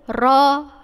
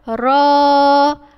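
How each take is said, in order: First: The vowel is held only briefly. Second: The vowel is drawn out for two beats. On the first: "bacaan dia mesti pendek" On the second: "awak kena baca panjang dua harakat"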